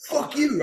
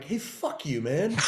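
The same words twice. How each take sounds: First: High-pitched mock yell back; retold screaming. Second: Retold cursing, kept fairly contained; mock defiance. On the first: Teacher screaming back at his student in a staged argument, high-pitched yell. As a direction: fire it back in a much higher voice. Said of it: "We start screaming". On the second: Student going too far with his teacher, contained defiance. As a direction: talk back without yelling. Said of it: "I went too far and I'm like".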